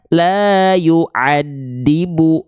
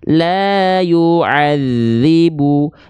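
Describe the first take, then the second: First: The consonant is a plain hard d sound. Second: The consonant is a soft th-like dh sound. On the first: The speaker calls it wrong. "tapi kita baca la yu'adibu. Nah, jangan begitu" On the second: The speaker calls it right. "yang harusnya kita baca"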